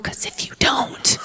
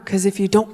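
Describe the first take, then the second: First: Menacing whisper. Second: Said in the usual way. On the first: Acted. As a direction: whisper the threat, slow and soft. Repeats threat, then whispers it.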